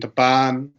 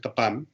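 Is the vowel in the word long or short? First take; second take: long; short. First: The vowel is held long. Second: The vowel is kept short. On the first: I meet. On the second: I kill.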